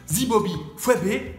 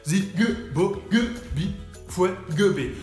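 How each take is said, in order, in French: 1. Le nom se dit sans aucun son G. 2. Le nom se dit avec des sons G insérés. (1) "c'est comme si on dit Zibobi Fwebe" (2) "mais on met des G un peu partout"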